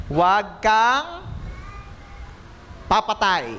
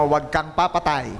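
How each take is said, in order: First: Stretched slow, rising on kang, falling on papatay; slow emphatic command. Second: Said in the usual way. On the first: Shown as a demonstration. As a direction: drag out Huwag kang before papatay. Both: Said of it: "sabihin mo nga sa katabi mo".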